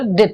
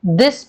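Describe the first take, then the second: First: दिथ for this, lisped th at the end; this with its s distorted to दिथ; distorted sound. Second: Said in the usual way. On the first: Shown as a demonstration. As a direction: say दिथ, final s turned to th. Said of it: "distorting sound in words". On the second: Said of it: "this ना बोलकर दिथ".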